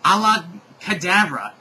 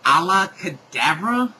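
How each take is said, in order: First: Sung, high, loud incantation with a falling end; sung, cast the spell in an acted voice; sung, declaimed spell, sure of itself; croon voice. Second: Loud, rising baffled question; puzzled echo, rising at the end; incredulous query. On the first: A narrator's reading. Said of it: "a croon voice say". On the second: Real, not acted. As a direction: question the words in disbelief. Reader queries the misspelt spell.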